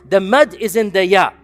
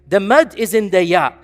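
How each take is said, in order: No difference in how they are said.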